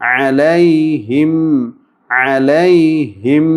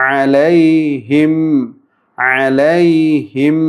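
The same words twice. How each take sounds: No difference in how they are said.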